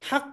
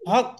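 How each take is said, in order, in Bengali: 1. স্বরধ্বনিটি খোলা 'a' ধ্বনি। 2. স্বরধ্বনিটি গোলাকার 'o' ধ্বনি। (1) "আসলে হক তো এটা না, এটা হচ্ছে হাক" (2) "অনেক সময় বাংলাতে বলি হক"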